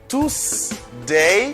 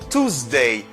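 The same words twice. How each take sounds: First: The middle consonant is an S sound. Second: The middle consonant is a Z sound. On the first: The speaker calls it wrong. "M'pap di" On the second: The speaker calls it right. "S la li ba mon son Z"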